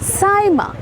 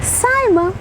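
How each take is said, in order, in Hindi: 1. नाम 'Saaima' की तरह बोला गया है। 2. नाम 'Saaima' की तरह बोला गया है।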